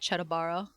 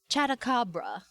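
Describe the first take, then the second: First: The name is said without a middle 'k' sound. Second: The name is said with a middle 'k' sound. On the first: The speaker calls it wrong. "I keep mispronouncing it. I just keep calling it Chatabara" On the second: The speaker calls it right. "It's Chatakabra. There you go"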